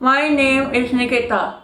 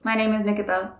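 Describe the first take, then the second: First: It is said slowly with each word apart. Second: It is said fast with the words running together. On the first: The speaker calls it right. "place this pen in my mouth" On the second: The speaker calls it wrong. "I tend to speak a bit fastly, ... you just go in a flow"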